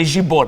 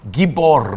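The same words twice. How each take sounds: First: The word begins with a soft J sound. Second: The word begins with a hard G sound. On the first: The speaker calls it wrong. "não é Gibor" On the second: The speaker calls it right. "é Gibor, não esqueça que em hebraico não existe som de J"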